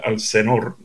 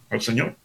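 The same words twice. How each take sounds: First: Señor said as "Senor" with a plain n; Señor without the ñ, like a phone keypad spells it; Señor pronounced "se-NOR", n not ñ. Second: Señor said properly with ñ, "se-ÑOR"; Señor pronounced with a clear ñ. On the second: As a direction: give Señor its full ñ sound. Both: Shown as a demonstration. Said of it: "en el teléfono no hay ñ".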